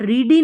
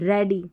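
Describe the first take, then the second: First: The first vowel is a long ee sound. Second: The first vowel is a short e sound. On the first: The speaker calls it wrong. "रीडी नहीं" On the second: The speaker calls it right. "ई ए को ए pronounce कर रहे हैं"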